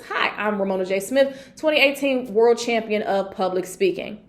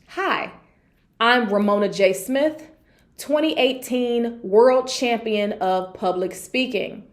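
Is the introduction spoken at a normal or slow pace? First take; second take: normal; slow. First: It is spoken at a normal pace. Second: It is spoken at a slower pace. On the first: The audience speaks English as a first language. "I can say it like this" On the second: The audience is multilingual. "I will slow it down and say it something like this"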